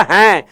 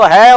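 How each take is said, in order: First: हैं with a nasalised vowel; "haĩ", nasal contrast to है. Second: है with a plain oral vowel; "hai", vowel through the mouth only. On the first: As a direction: say हैं through the nose. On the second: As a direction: say है without any nasal sound. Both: Shown as a demonstration. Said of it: "एक तो है और एक हैं".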